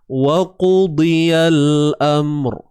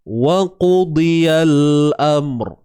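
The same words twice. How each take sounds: Both takes have the same delivery.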